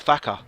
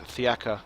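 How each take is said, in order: First: The name is said without the extra vowel. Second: The name is said with the extra vowel. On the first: The speaker calls it wrong. "I've just been calling him Thaka" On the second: The speaker calls it right. "you have to pronounce the E A"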